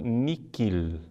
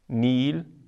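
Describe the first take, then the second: First: The middle consonant is pronounced as a 'k' sound. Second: The middle consonant is silent, with no 'k' sound. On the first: The speaker calls it wrong. "antiga pronúncia portuguesa ... com que" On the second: The speaker calls it right. "deve ser pronunciada como se o H não existisse"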